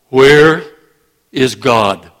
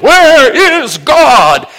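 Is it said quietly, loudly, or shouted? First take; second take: quietly; shouted. First: It is said at a normal, stern volume. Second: It is shouted at full volume.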